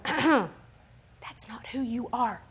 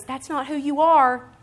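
First: Slow, breath-only whisper; Holy Spirit's prompting. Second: Slow, louder, higher declaration; firm correction. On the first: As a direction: whisper it as a gentle inner correction. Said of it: "Holy Spirit's tapping on the inside of me". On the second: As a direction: state it firmly as God correcting you. God's correction, replayed out loud. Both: Acted.

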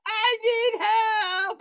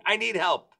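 First: Very high, slow wail for help; hammed-up scream, stretched right out; mock screaming. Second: Said in the usual way. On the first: Vomiting guest wailing to his host, mock screaming. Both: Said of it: "He's screaming".

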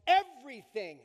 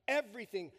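First: "everything" said loud with a falling end; loud, in caps. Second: Said in the usual way. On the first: Shown as a demonstration. Pastor to congregation, "everything" shouted out in caps. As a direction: belt out "everything" as if in capitals with an exclamation mark. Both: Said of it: "In caps with an exclamation mark".

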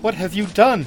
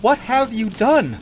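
First: Higher, louder cry of alarm; appalled queen, moderately acted; distressed cry. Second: Higher, slower, more anguished demand; drawn-out distressed cry. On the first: Queen to her treacherous sister, crying out in alarm. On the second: Queen demanding an answer from her sister, crying out slowly. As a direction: stretch it out in appalled alarm. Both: A narrator's reading. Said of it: "cried Taramis".

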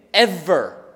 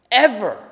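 First: Said in the usual way. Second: "Ever" punched louder with a firm fall; stressed repeat. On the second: Real, not acted. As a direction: hit "Ever" hard and final. Word repeated for emphasis.

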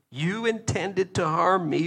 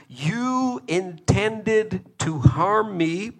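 First: "harm" stretched and held; "harm me" held long with weight; stress on harm. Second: "You" drawn out slow, rising; "You intended to harm me" said slowly, rising on "You"; stress on you. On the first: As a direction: press on "harm". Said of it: "repeated quote". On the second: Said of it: "repeated quote, slow and stressed". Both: Shown as a demonstration.

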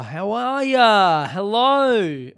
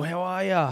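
First: Slow, loud, higher, stretched "How are ya?"; loud drawn-out greeting. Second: Said in the usual way. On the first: Shown as a demonstration. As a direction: drag out "How are ya?" like calling to a crowd. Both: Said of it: "Just fucking talk to the people".

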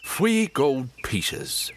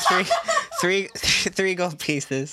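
First: Very slow, drawn-out bad Cockney accent; Michael Caine accent. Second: Laughing tease. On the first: Game master showing off horrible accent, exaggerated Cockney. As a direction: stretch each word in a hammy Cockney accent. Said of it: "Get a bit of Michael Caine in there". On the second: Retold or imitated. Player teasing game master about accent, laughing. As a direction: repeat the catchphrase, laughing.

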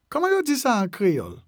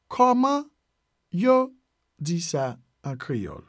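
First: Said in the usual way. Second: "Kòman", pause, "yo", pause, then slowly "di sa an Kreyòl"; broken into parts. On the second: Shown as a demonstration. Teacher teaching how to ask in Creole, broken into parts. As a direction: dictate it piece by piece. Teacher breaks phrase into words.

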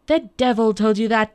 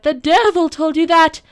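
First: Loud, outraged little man; angry cry. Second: Very loud, high enraged shout; furious cry. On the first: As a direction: cry out in anger, holding a little back. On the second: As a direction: explode with rage at full pitch. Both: A narrator's reading. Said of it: "cried the little man angrily".

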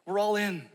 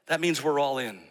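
First: Higher, ringing declaration; all in, called out with conviction; rallying refrain. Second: Said in the usual way. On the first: Shown as a demonstration. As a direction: lift it like a rally cry. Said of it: "refrain echoed". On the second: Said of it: "repeated refrain".

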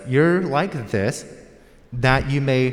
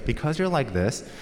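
First: You're like this said slowly and louder, each word weighed; slowed and stressed for the grammar lesson; slow, emphatic reading. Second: Said in the usual way. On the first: Shown as a demonstration. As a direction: lay out "You're like this, that you may" slowly to show its grammar. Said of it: "purpose clause". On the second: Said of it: "for you grammarians out there".

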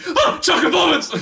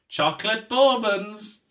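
First: High, loud delighted shriek; excited squeal. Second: Said in the usual way. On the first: Retold or imitated. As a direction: squeal it with pure joy. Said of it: "I wouldn't be like". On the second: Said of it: "somebody would, like".

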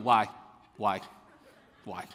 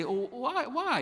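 First: Short authoritative questions, each standing alone; mock a small boy demanding answers with authority; assertive child. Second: High-pitched imitation of curious children; inquisitive kids. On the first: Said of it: "with quite the authority and assertiveness". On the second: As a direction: ask lightly, way up high, like a child. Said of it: "they're really inquisitive".

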